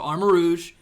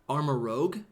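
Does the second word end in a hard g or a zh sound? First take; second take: zh sound; hard g. First: The second word ends in a soft zh sound. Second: The second word ends in a hard g sound. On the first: The speaker calls it right. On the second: The speaker calls it wrong.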